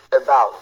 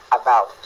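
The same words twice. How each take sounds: First: About with a schwa start, ə-bau; correct about. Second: About said with a full A, apa; French-style about with a open first vowel; wrong about. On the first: Teacher modelling about for students, schwa first. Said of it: "ce mot se lit". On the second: Teacher demonstrating the wrong about to students, French-style. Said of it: "c'est E et non A". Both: Shown as a demonstration.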